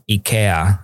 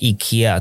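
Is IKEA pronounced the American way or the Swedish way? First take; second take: Swedish; American. First: IKEA is said with a Swedish pronunciation. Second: IKEA is said with an American pronunciation. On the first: "还是瑞典念IKEA" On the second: "美国人应该是念IKEA"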